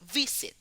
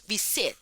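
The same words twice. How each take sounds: First: The stress is on the first syllable. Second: The stress is on the second syllable. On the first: The speaker calls it right. "se decimos visit. Visit, la primera, la, la consonante fuerte es V" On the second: The speaker calls it wrong. "No decimos visit"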